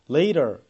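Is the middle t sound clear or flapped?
flapped. The middle t sounds like a quick r-like flap. "later 이렇게 하는 게 미국 발음이라면"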